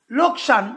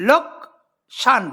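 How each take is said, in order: First: Said in the usual way. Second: লোকসান drawn out very slowly as লোক-সান; slow syllable demo. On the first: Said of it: "এই শব্দটা যখন তোমরা উচ্চারণ করছো". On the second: Shown as a demonstration. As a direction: stretch লোকসান to show two beats. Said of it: "দুই দল বিশিষ্ট শব্দ". (লোকসান ধীরে দুই ঝোঁকে ভেঙে বলা)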